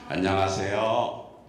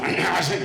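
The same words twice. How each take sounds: First: The greeting is said in a soft, low voice. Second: The greeting is said in an ordinary plain voice. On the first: The speaker calls it right. "가장 멋지고 아름답고 부드러운, 제가 약간 중저음이잖아요" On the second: The speaker calls it wrong. "이렇게 안 내요"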